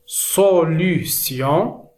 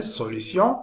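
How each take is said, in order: First: "solution" drawn out syllable by syllable; slow, separated syllables on "solution"; careful word modelling. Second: Said in the usual way. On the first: Shown as a demonstration. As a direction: sound out "solution" slowly for learners. Slow model, then said normally.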